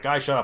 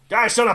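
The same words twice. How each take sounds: First: It is said in a plain, neutral accent. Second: It is said in a Western cowboy-style accent.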